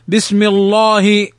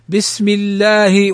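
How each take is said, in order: First: The L in Allah is heavy and full. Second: The L in Allah is thin and light. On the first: The speaker calls it wrong. "ولا نقول بسم الله فنفخمها، هذا خطأ" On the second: The speaker calls it right. "فترقق، فنقول بسم الله"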